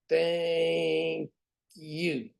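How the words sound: It is said in a flat mechanical robot voice. "Here's my robot"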